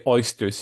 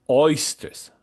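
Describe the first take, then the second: First: Said in the usual way. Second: "oysters" drawn out slowly with a rising tune; emphatic oysters. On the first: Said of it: "she doesn't just say oysters". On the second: Shown as a demonstration. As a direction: lean into "oysters", stretch it and lift the end. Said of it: "she doesn't just say oysters, she says oysters".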